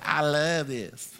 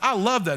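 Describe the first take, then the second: First: It is said possessively, like Gollum. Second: It is said in a light, casual tone.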